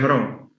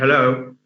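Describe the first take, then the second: First: The middle consonant is an R-like sound. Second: The middle consonant is a clear L sound. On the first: The speaker calls it wrong. "They tend to replace l sound by by ra" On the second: The speaker calls it right. "instead of saying hello"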